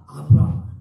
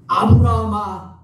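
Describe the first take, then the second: First: Loud, lower-pitched second summons; repeated call. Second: Loud, drawn-out summons; calling out. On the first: God calling Abraham a second time, lower firm call. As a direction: call the name lower and shorter, still loud. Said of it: "두 번 부르십니다". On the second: God calling Abraham to stop him, loud drawn-out call. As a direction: call the name loudly, stretching it slowly. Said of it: "뭐라고 부르세요?". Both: Acted.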